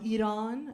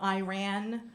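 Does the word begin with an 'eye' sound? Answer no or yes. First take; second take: no; yes. First: The first syllable does not sound like 'eye'. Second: The first syllable sounds like 'eye', as in 'I ran'. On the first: The speaker calls it right. "that's how you pronounce it" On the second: The speaker calls it wrong. "not Iran. Um, I never run"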